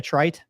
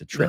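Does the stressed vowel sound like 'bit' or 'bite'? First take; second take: bite; bit. First: The stressed vowel sounds like the one in 'bite'. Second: The stressed vowel sounds like the one in 'bit'. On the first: This is how the Navy says it. The speaker calls it wrong. "don't you all say a trite?" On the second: This is how the Air Force says it. The speaker calls it right. "That's wrong. It's a trit"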